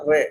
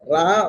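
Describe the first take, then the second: First: The name ends in an 'ay' vowel. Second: The name ends in an open 'ah' vowel. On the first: "റാ എന്നും റേ എന്നും പറയും" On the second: "റാ എന്നും റേ എന്നും പറയും"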